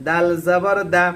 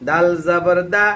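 No difference in how they are said.

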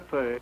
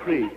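First: The syllable sounds like 'purr', vowel before r. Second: The syllable sounds like 'pre', r before vowel. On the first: The speaker calls it wrong. "Not a purr" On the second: The speaker calls it right. "a pre"

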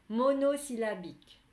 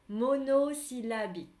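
No difference in how they are said.

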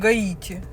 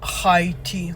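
First: The name begins with a g sound. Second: The name begins with an h sound. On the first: This is the speaker's own everyday name for the country. "We have new student from Гаити" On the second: This is how the new classmate says the name. "Он говорит Хайти"

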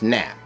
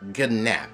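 First: The word starts directly with the N sound, no G. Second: The word starts with a hard G sound before the N. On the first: The speaker calls it right. "it's nap. You know, it's like the word gnome. It's a silent G" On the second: The speaker calls it wrong. "they pronounce the word wrong. They would say gnap. You know, it's not gnap"

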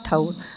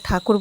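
First: The middle k sound is dropped entirely. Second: The middle k sound is clearly pronounced. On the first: The speaker calls it wrong. "ঠাউর বলে সবসময়" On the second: The speaker calls it right. "ও ঠাকুর বলতে পারে না"

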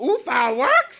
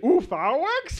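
First: Fireworks is stressed on the second syllable. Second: Fireworks is stressed on the first syllable.

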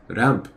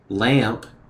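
First: The word begins with a quick R sound. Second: The word begins with a clear L sound. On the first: This is the Japanese form of the loanword. "typically they use a rushed R sound for that" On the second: This is the original English form. "instead of lamp"

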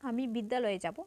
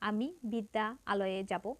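First: The two a vowels merge into one. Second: The two a vowels are said separately. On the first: The speaker calls it right. "এটা সহজ হয় এবং এখানে সংক্ষিপ্তও হয়" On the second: The speaker calls it wrong. "এটা একটু জটিল"

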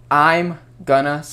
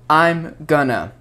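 The two takes are said the same way.

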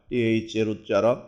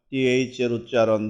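The two takes are said the same way.

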